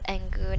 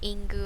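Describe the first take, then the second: First: The name begins with an 'eh' vowel. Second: The name begins with an 'ih' vowel. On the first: The speaker calls it right. "that should be pronounced as Engu" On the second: The speaker calls it wrong. "not Ingu"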